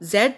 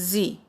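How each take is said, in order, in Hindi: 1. अक्षर का नाम ब्रिटिश उच्चारण में बोला जाता है। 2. अक्षर का नाम अमेरिकी उच्चारण में बोला जाता है। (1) "In British pronunciation, we uh, say it Z" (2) "in American uh, language, we say it as Z"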